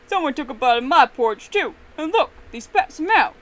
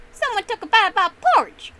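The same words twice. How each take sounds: First: Loud outraged screech, rising at the end. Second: High, very loud outraged roar. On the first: Papa Bear finding his porridge tasted, screeching. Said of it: "Papa Bear screeched". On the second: Daddy Bear finding his porridge eaten, roaring. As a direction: roar it at the top of your voice. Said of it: "Daddy Bear roared". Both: A narrator's reading.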